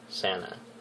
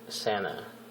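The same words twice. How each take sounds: Both takes have the same delivery.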